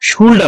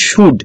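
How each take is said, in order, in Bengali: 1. শব্দটিতে L-এর উচ্চারণ আছে। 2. শব্দটিতে L-এর উচ্চারণ নেই। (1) "অনেকে শুল্ড আমরা উচ্চারণ করি" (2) "আসলে এল এর এখানে উচ্চারণ থাকবে না"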